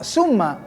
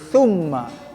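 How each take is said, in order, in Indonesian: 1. Diawali dengan bunyi s yang mendesis. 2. Diawali dengan lidah di antara gigi. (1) "bukan summa" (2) "tapi summa ... lidahnya dikeluarkan, digigit"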